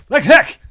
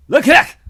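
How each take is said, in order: First: High shouted gibberish; alien shout. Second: Alien shout. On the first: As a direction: bark the alien word out. Mock alien shout repeated. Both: Acted.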